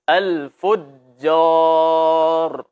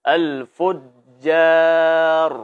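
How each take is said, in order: No difference in how they are said.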